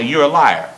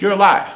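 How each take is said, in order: First: Said in the usual way. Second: Higher-pitched, emphatic "You're a liar". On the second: Shown as a demonstration. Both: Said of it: "I'll say it with emphasis".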